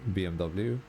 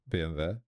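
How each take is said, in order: First: The letters are said with English pronunciation. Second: The letters are said with Swedish pronunciation. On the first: "when hearing people talk like English, they pronounce it" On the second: "that is kind of how we pronounce it, it in Sweden as well"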